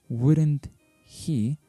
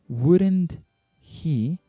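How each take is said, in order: The two takes are said the same way.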